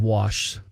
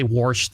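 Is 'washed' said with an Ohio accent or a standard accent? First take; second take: standard; Ohio. First: It is said with a standard, non-regional accent. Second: It is said with an Ohio regional accent. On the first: "instead of washed" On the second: "I got an Ohio accent. I say washed"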